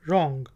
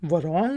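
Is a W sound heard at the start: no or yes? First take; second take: no; yes. First: The word starts with an R sound. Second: The word starts with a W sound. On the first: The speaker calls it right. "डब्ल्यू silent है" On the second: The speaker calls it wrong. "वरॉन्ग नहीं है"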